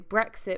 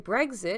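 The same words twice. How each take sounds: First: The middle consonants sound like k then s. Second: The middle consonants sound like g then z. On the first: "with a k sound, you'll pronounce the next sound as s" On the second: "with a g sound, you'll pronounce the next sound as z"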